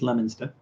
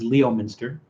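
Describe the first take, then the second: First: The name is said unlike its spelling. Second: The name is said the way it looks. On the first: The speaker calls it right. "but it's Leominster" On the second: The speaker calls it wrong. "everyone else who sees that says Leominster"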